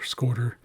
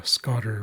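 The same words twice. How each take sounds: First: "scoter" with a long o, as in "boat"; long-o variant. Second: "scotter" with a short open o, as in "hot"; short-o variant. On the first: Teacher offering the other pronunciation, "scoter" with long o. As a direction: say "scoter" to rhyme with "voter". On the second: Teacher unsure of the duck's name, "scotter" with short o. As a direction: say "scotter" to rhyme with "hotter". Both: Shown as a demonstration. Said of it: "Not actually sure how to pronounce that".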